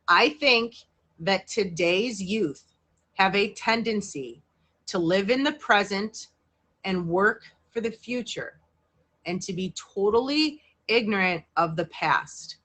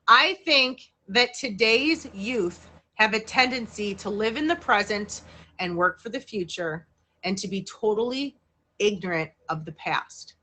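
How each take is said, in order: First: It is read at a slower pace. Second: It is read at a faster pace.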